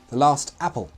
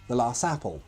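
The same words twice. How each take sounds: First: The final T of 'last' is clearly pronounced. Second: The final T of 'last' is dropped entirely. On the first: The speaker calls it right. "you should pronounce the T" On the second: The speaker calls it wrong. "not the last apple"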